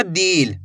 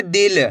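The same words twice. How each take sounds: First: दिल stretched into "deel"; long ee. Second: दिल with a short, quick i. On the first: Teacher showing learners the mistake, दिल with long drawn-out ee. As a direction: draw out the vowel in दिल as a long ee. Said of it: "ऐसे नहीं पढ़ना". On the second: Teacher answering how to read it, दिल with short i. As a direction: keep the vowel in दिल brief, not drawn out. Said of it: "तो कम खींच के पढ़ेंगे". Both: Shown as a demonstration.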